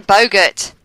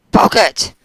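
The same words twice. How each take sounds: First: "Boggart" said in an overly posh way; mock your own posh way of saying "Boggart"; too-posh pronunciation. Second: "Boggart" exclaimed loud and higher, as a self-correction; corrected pronunciation. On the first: Shown as a demonstration. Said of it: "It sounds too posh". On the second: Real, not acted. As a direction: correct yourself with a punchy "Boggart!". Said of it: "I keep saying Boggart".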